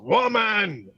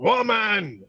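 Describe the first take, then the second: First: It is said in an imitation of Animal. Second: It is said in an imitation of Animal.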